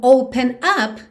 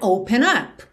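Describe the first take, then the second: First: The two words are said separately. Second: The final n links into the next word. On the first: "percebe como open up vira" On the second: "vira open up"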